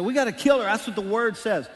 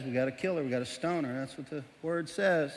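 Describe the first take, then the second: First: Louder, higher, demanding mob; angry accusers. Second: Defuse them gently; lightly voiced calm Jesus. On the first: Acted. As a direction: push hard for the stoning. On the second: Jesus calmly agrees.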